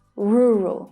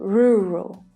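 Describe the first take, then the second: No difference in how they are said.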